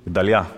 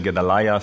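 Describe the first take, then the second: First: The name is said the original Hebrew way. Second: The name is said the familiar English way. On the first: "But it's really" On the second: "You would say"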